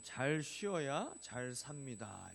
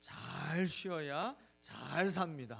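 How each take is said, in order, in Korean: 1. "잘"은 특별한 강조가 없습니다. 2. "잘"은 강하게 강조됩니다.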